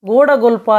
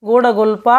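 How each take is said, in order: Both takes have the same delivery.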